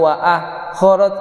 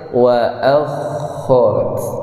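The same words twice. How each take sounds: First: The kh sound is cut off abruptly. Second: The kh sound flows on continuously. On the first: The speaker calls it wrong. "tidak wa akharat, berarti itu putus" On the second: The speaker calls it right.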